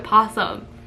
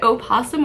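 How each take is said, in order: First: The word starts directly with the 'p' sound. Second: The word starts with an extra 'o' vowel. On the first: "you don't say the O in front of" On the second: "is it opossum"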